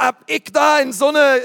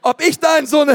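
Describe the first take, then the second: First: Fränkisch gemeint, aber nach Berlin gerutscht; versehentlich Berliner Akzent. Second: Holpriger Versuch eines fränkischen Akzents, höher; fränkisch nachgemacht, etwas lauter; fränkischer Akzent. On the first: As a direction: misslungener Berliner Akzent, etwas höher und lauter. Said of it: "jetzt kriegen wir schon wieder Berliner Akzent". (verrutschter Berliner Akzent) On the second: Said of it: "ich kann diesen fränkischen Akzent einfach nicht". (misslungener fränkischer Akzent) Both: Retold or imitated.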